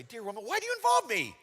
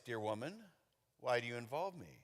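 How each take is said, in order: First: High-pitched, put-upon protest; hammed-up annoyed complaint; mock exasperation. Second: Soft, lower, inviting question; understated, softly curious; gentler reading. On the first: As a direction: object sharply, voice jumping up. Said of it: "you can interpret this way". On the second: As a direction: ease it out quietly and low. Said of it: "you could say it like this". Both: Shown as a demonstration.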